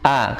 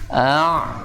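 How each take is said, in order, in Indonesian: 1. Bunyinya berasal dari bagian bawah tenggorokan. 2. Bunyinya berasal dari bagian tenggorokan yang lebih tinggi. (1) "hamzah kan suaranya ada di tenggorokan bagian bawah" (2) "tenggorokan naik ke atas"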